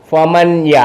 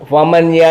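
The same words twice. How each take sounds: First: The n is pronounced clearly before the y. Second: The same.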